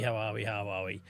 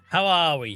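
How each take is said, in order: First: Much lower, softer, trailing off; fading mutter. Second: Said in the usual way. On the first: Shown as a demonstration. Greeting chat again, voice fading to a murmur. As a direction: let it die away to almost nothing. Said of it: "repeats greeting, fading away". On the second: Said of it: "repeats greeting in varied ways".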